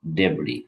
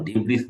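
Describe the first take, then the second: First: "ডেব্রি" with a silent s, ending on the vowel; correct pronunciation. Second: "ডেব্রিস" with the final s sounded, as the wrong way; wrong pronunciation. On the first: Teacher gives students the right "ডেব্রি" without the s. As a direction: say "ডেব্রি" with no s at the end. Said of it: "এটার উচ্চারণটা আসলে ডেব্রি". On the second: Teacher shows students the wrong "ডেব্রিস" with s. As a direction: say "ডেব্রিস" ending on a clear s. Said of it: "এটার উচ্চারণ ডেব্রিস না". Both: Shown as a demonstration.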